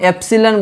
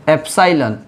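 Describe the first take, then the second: First: The middle vowel sounds like 'ih'. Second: The middle vowel sounds like 'eye'. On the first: "ऐसे हम एप्सिलन बोलते हैं" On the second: "physics में इसको एप्साइलन बोलते हैं"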